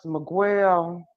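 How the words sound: The name is said in a hood pronunciation.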